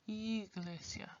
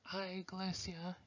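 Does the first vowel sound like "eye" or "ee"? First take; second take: ee; eye. First: The first vowel sounds like "ee". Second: The first vowel sounds like "eye". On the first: The speaker calls it right. "pronounce it like you would E" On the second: The speaker calls it wrong. "which has more of a I, ya, ya sound"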